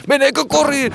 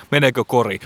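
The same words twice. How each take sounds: First: Higher, tense repeat of Meneekö kori; excited. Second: Said in the usual way. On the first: Shown as a demonstration. Commentator repeats the question, high and tense.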